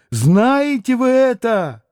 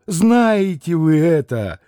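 First: Much higher second asking; fervent ask, peak. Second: 1 fervent first ask. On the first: Катерина Ивановна повторяет вопрос Алёше, ещё выше и горячее. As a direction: stress вы, pitched way up. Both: A narrator's reading. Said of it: "воскликнула вдруг с необыкновенным жаром".

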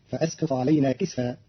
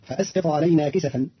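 First: كسفا said "kisfa", sin without a vowel; كسفا in two syllables, "kis-fa"; silent-vowel sin. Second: Said in the usual way. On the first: Shown as a demonstration. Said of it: "بإسكان السين". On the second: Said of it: "قرأ قالون كلمة كسفا".

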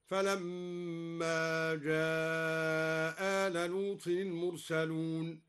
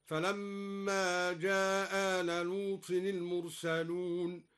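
First: Very slow recitation, long hold on جاء before آل; dropped hamza, long madd. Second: Slow recitation, one hamza dropped in جاء آل; dropped hamza, shorter madd. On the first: Teacher shows al-Duri's madd, جاء stretched into آل. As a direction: chant جاء آل as "jaaaa-ala", first vowel drawn long. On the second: Teacher shows al-Duri's reading, جاء آل merged with short vowel. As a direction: chant جاء آل as one "ja-ala", short hold. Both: Shown as a demonstration. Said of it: "بإسقاط الهمزة على المد والقصر هكذا".

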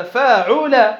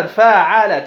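First: "فاعل" drawn out as faa-uu-la; middle vowel damma. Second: "فاعل" drawn out as faa-aa-laa; all three vowels open. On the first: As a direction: sound out "فاعل" slowly with "u" on the middle letter. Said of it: "تكون العين مضمومة". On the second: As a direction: sound out "فاعل" slowly, an "a" on every letter. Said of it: "تفتح الفاء وتفتح العين وتفتح اللام". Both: Shown as a demonstration.

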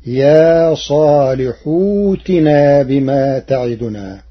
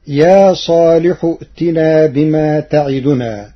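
First: صالح ائتنا joined as صالح وتنا, the hamza turned into a silent waw; Warsh reading. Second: Said in the usual way. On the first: Shown as a demonstration. Teacher demonstrates Warsh's ائتنا with a silent waw instead of hamza. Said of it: "بإبدال همزة القطع واوا ساكنة". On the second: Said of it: "قرأ ورش".

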